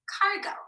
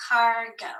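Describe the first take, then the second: First: Cargo. said again higher; higher echo of cargo; echoed word. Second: Said in the usual way. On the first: Shown as a demonstration. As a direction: lift cargo. up on the repeat.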